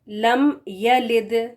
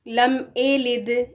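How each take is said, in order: First: The second word begins with a clear 'ya' sound. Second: The second word begins with an 'e' sound. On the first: The speaker calls it right. "या ज़बर या, इसकी आवाज़ होनी चाहिए" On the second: The speaker calls it wrong. "तो ये गलत है"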